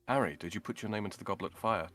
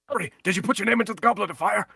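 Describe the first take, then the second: First: It is said quietly and calmly. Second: It is said loudly, almost shouted.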